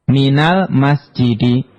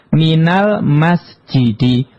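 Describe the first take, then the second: The two takes are said the same way.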